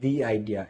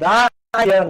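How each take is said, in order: First: 'The' is said with a long ee vowel. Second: 'The' is said with a short uh vowel. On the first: The speaker calls it right. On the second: The speaker calls it wrong.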